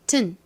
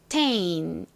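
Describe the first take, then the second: First: The vowel drops, leaving a short tn sound. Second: The syllable keeps a full A vowel. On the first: "A 발음이 탈락이 되게 됩니다. 그래서 T-N의 발음인 튼" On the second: "강세가 이 T-A-I-N에 오는 경우에는 tain 이렇게 발음이 나죠"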